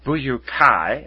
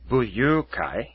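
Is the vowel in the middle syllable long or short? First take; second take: long; short. First: The middle u vowel is held long. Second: The middle u vowel is kept short. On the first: It means martial friends. "as martial friends" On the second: It means a club for happiness. "When you say this without the double U"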